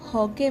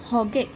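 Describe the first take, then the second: Both takes have the same delivery.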